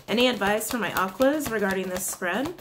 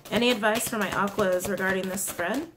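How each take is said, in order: Both takes have the same delivery.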